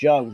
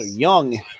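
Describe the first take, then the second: First: The name starts with a J sound. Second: The name starts with a Y sound. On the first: The speaker calls it wrong. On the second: The speaker calls it right.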